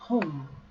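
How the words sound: It is said with an American vowel. "Home American"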